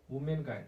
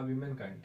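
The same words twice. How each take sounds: First: "womankind" said as woo-men-kind; "womankind" with a rounded first vowel, woo; first pronunciation variant. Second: "womankind" said as wi-men-kind; "womankind" starting like "women", wi-men; alternative pronunciation. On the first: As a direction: say "womankind" slowly with an oo in the first syllable. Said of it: "womankind या womankind". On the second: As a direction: say "womankind" slowly with a short i in the first syllable. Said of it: "या womankind". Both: Shown as a demonstration.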